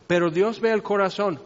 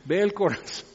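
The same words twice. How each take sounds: First: Tossed off casually, no weight at all; dicho a la ligera. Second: Hushed, mock-awed dread; con miedo. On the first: Retold or imitated. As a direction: say it like a cliché you don't mean. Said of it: "muy, muy a lo ligero". (a la ligera, como frase hecha sin peso) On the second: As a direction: let the words land as a frightening realization. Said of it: "qué miedo". (con asombro temeroso, casi susurrado)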